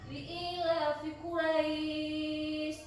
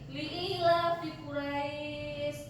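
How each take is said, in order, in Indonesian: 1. Vokal sebelum akhir dibaca lebih lama. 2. Vokal sebelum akhir dibaca sebentar. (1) "Yang dua alif juga bisa" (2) "Ini satu alif"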